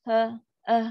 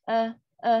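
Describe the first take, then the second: No difference in how they are said.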